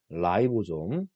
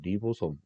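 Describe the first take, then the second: First: The first syllable sounds like 'rye'. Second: The first syllable sounds like 'ree'.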